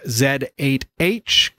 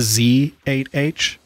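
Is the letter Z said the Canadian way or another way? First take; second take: Canadian; another way. First: The letter is said the Canadian way. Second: The letter is said a non-Canadian way. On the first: "that's my Canadian pronunciation" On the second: "is it the Z8H?"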